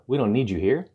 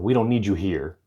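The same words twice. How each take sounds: First: The pitch rises at the end. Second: The pitch falls at the end. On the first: It is a question. "when you go up, it sounds like a question" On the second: It is an authoritative statement. "Did he move down?"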